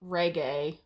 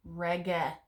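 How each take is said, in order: First: Reggae with a long "ay" ending, "REG-ay"; music-genre pronunciation. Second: Reggae with a short final e, "REG-eh"; Latin ablative pronunciation. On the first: Teacher showing the mistake to avoid, reggae said "REG-ay". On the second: Teacher gives the ablative form, reggae said "REG-eh". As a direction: say reggae as "REG-eh", hard g, no glide at the end. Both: Shown as a demonstration. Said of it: "not reggae. It's not Jamaican music".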